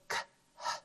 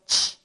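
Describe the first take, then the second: First: Two separate sounds are said, k then h. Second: One blended sound is said, ch. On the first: The speaker calls it wrong. "we do not say k, h" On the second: The speaker calls it right. "We instead say ch"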